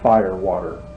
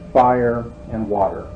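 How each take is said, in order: First: It is said quickly, running into one word. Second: It is said slowly, each word kept apart. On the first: It sounds like a different word altogether. The speaker calls it wrong. "or else the end comes out fire, water" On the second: It names the separate elements. The speaker calls it right. "We have to say that slowly"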